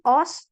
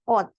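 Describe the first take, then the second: First: The word ends with an s sound. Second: The word ends with a t sound. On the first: The speaker calls it wrong. "Bukan os" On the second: The speaker calls it right. "tapi dibacanya ot"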